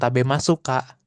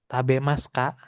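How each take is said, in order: First: The final u of masu is fully voiced. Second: The final u of masu is dropped. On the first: Extra emphasis on politeness. The speaker calls it wrong. "bukan tabemasu kak" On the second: Ordinary everyday polite speech. The speaker calls it right. "Cukup des, arimas, ikimas, tabemas kak"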